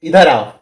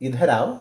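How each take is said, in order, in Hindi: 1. यह तीखे, गुस्से भरे लहजे में कहा गया है। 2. यह प्यार भरे, स्नेहपूर्ण लहजे में कहा गया है। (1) "गुस्से से बोल रहा है" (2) "वो समझ जाएगा कि प्यार"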